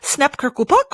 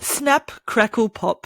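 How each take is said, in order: First: It is said very fast. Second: It is said slowly.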